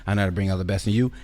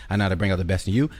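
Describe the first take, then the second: No difference in how they are said.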